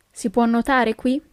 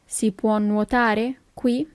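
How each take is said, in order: First: Said in the usual way. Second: Slow question, words set apart; slow teaching repeat. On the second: Shown as a demonstration. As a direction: ask it slowly for learners. Teacher repeats slowly for learners.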